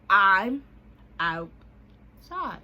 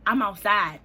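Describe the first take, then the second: First: "I'm" loud, pause, then "outside" stretched out; word-by-word insistence. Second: Loud, punched "I'm outside"; emphatic announcement. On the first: Answering "what you mean you outside", spelled out slowly. Repeats after being questioned. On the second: Texting him outside his house, loud and emphatic. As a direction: state it loudly and firmly. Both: Retold or imitated.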